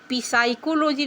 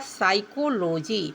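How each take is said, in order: First: The word starts with a sounded P. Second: The word starts with an S sound. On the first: The speaker calls it wrong. "इसको पी साइकोलॉजी नहीं पढ़ेंगे" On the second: The speaker calls it right. "पी silent हो जाएगा तो पढ़ा जाएगा साइकोलॉजी"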